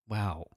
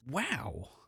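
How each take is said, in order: First: It is said with low enthusiasm. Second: It is said with high enthusiasm.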